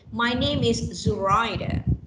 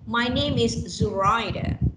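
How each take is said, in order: First: The stress is on the second syllable. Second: The stress is on the second syllable.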